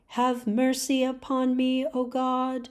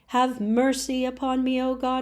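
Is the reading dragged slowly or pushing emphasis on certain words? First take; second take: dragged slowly; pushed emphasis. First: It is very slow, with every word weighted. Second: Certain words are pushed with strong emphasis. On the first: "that's a little too slow" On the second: "push and emphasize certain words, like this"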